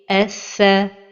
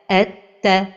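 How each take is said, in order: First: The doubled consonant sounds like th. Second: The doubled consonant sounds like t. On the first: The speaker calls it right. "la prononciation correcte est" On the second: The speaker calls it wrong. "un son qui ressemble à la lettre Ta"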